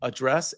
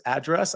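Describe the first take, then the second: First: "address" said uh-DRESS, stress on the end; "address" with a weak first uh and stress on DRESS; "address" as uh-DRESS, second syllable stressed. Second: "address" said AD-dress, stress up front; "address" with a full first A, stressed: AD-dress; "address" as AD-dress, first syllable stressed. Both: Shown as a demonstration. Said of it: "Do you say address or address?".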